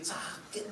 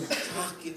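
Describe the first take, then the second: First: A pained whisper of sakit; whispered hurt. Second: Said in the usual way. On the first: Shown as a demonstration. Preacher recalling a breakup, whispering sakit in pain. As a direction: breathe sakit out as a whisper, hurting. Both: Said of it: "aku pernah diputusin".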